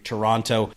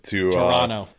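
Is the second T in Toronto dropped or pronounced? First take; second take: pronounced; dropped. First: The second T is clearly pronounced. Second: The second T is dropped. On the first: The speaker calls it wrong. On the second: The speaker calls it right.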